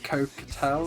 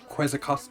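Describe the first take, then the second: First: The name begins with a 'ko' sound. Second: The name begins with a 'kwets' sound. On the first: The speaker calls it right. "Apparently, it's Cocatel or something like that" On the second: The speaker calls it wrong. "another word that I used to say wrong"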